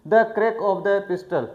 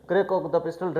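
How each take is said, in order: First: Slow, careful read of the English phrase; deliberate classroom reading. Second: Said in the usual way. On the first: Shown as a demonstration.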